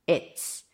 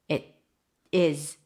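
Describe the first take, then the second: First: The verb is reduced to a z sound. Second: The verb is said as a full word.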